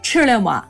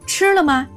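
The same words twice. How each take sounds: First: It is said in Shaanxi dialect. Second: It is said in Standard Mandarin.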